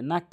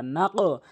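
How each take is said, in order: First: "নাক" with an ordinary closed k; common mispronunciation. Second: "নাক" with a back-of-tongue q bounced upward; qalqalah on qaf. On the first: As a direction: end "নাক" on a front k, no bounce. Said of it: "একটি হচ্ছে নাক বলে". (সাধারণ কাফ দিয়ে "নাক") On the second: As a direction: release the end of "নাক" with an echo. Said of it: "কলকলা উপরের দিকে ধাক্কা". (কফে ধাক্কা দিয়ে "নাক") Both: Shown as a demonstration.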